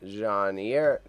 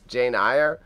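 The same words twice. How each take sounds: First: Put-on Jane Eyre in an overdone French accent, zhahn eer. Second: Said in the usual way. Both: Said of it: "I went too much with the French accent".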